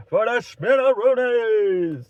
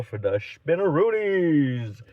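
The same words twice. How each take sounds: First: Loud, high, stretched-out "spinneroonies"; silly exclamation. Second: Said in the usual way. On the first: Pretend. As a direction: belt out the goofy word slowly. Repeats silly punchline as exclamation.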